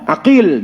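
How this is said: The middle consonant is a deep q sound.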